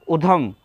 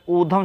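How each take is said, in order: First: उधम with a short "u" at the start; wrong short u. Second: ऊधम with a long "oo" and aspirated "dh"; correct long oo. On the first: Teacher demonstrating the wrong short vowel to students. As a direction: say उधम with a short, clipped first u. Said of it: "उधम शब्द गलत है". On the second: Teacher giving students the correct long vowel. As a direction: say ऊधम as "oo-dham", the first vowel held long. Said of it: "ऊधम शब्द सही होता है". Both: Shown as a demonstration.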